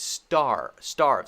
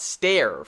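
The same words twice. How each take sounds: First: "star", then "starve", with open AR; "starve" falling, vowel as in car. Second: "stare" with an air vowel; "stare" rhyming with air; mistaken vowel. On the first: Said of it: "It's star, starve". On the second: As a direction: say "starve" wrongly, like "stare". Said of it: "This is not stare". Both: Shown as a demonstration.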